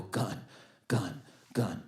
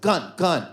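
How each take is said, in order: First: Low, soft, spaced-out murmur; said inwardly. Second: Livelier inner alert. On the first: Man watching a robber approach, murmured inwardly. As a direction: voice a private thought under your breath. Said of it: "what I was saying in my head". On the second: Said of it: "when he got close, I was like". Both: Retold or imitated.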